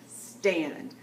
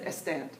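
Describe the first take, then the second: First: The word begins directly with the S sound. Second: An extra vowel is added before the S. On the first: The speaker calls it right. "no, it's a stand, not a stand" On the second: The speaker calls it wrong. "They don't really have the solitary S as a start uh, sound. So they say"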